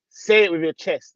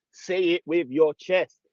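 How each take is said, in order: First: Said in the usual way. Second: Slow, weighty "your" in Say it with your chest; slow and emphatic. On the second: Shown as a demonstration. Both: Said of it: "You know, like that".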